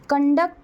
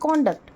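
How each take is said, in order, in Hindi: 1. Stress दूसरे syllable पर है। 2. स्ट्रेस पहले सिलेबल पर है। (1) "यहाँ पे हमने फर्स्ट सिलेबल पे फोर्स नहीं किया है।" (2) "ये नाउन है"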